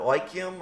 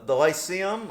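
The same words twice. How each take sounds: First: Lyceum with a k sound, like-EE-um; hard-c pronunciation. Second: Lyceum with an s sound, lie-SEE-um; soft-c pronunciation. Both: Shown as a demonstration. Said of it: "I don't know Greek and Latin words".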